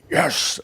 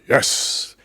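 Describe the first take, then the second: First: It is said loudly with great excitement. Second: It is said with moderate energy.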